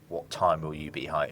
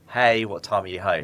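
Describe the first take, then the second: First: It sounds annoyed and accusing. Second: It sounds light and friendly.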